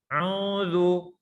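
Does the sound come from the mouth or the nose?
nose. The sound comes out through the nose. The speaker calls it wrong. "Kalau dengan hidung"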